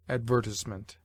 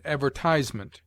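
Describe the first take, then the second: First: Advertisement as ad-VER-tiz-ment, short i; stress on second syllable. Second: Advertisement as ad-ver-TIZE-ment, long i; stress on third syllable. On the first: Reader showing the rejected accent, advertisement stressed on VER. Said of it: "rather than". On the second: Reader giving the recommended accent, advertisement stressed on TISE. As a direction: say advertisement with the beat on TISE, rhyming with prize. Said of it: "We should therefore say". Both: Shown as a demonstration.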